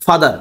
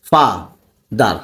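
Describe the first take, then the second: First: Said in the usual way. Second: ফা, a long pause, then দার; father broken into two separate beats, ফা and দার; split into syllables. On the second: Shown as a demonstration. (ফা আর দার আলাদা করে উচ্চারণ) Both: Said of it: "ফা একসাথে উচ্চারণ করা যায়".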